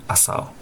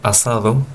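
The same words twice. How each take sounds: First: The d between the last vowels is dropped. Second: The d between the last vowels is clearly pronounced. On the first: "como es muy popular decir" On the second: "la conservación de la D en posición intervocálica"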